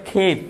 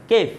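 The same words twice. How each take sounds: First: খেফ opening on breathy kh; wrong aspirated kh. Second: কেফ with a hard k, no puff; unaspirated k. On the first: Teacher quotes what many say, aspirated খেফ. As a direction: puff air into the first sound of খেফ. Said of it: "খেফ হইতো না". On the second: Teacher corrects the class, unaspirated কেফ. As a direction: keep the k of কেফ free of air. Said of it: "খেফ হইতো না, কেফ". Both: Shown as a demonstration.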